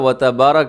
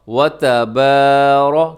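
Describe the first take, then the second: First: The vowel after 'b' is cut short. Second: The vowel after 'b' is drawn out long. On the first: The speaker calls it wrong. "इसे ऐसे नहीं पढ़ना" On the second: The speaker calls it right. "एक सेकंड तक लंबा करना है"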